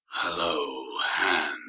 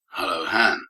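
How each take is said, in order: First: It is said in a deep, dramatic trailer voice. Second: It is said in an ordinary conversational voice.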